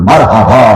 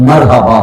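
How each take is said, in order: The two takes are said the same way.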